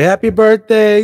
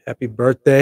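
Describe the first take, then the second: First: Much higher and louder, slowed, a big celebratory happy birthday; excited cheer. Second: Said in the usual way. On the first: Real, not acted. Vlogger cheering his channel's fourth birthday, excited. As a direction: belt it like a party cheer.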